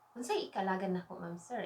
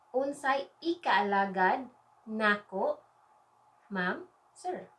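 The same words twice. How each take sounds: First: Fast, run-together Bisaya phrase; quick natural take. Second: Slow, spaced-out Bisaya for learners; slow phrase model. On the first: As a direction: rattle it off at everyday speed. Same phrase at natural speed. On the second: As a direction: stretch each word of the phrase. Teacher models phrase, then says it quickly. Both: Shown as a demonstration.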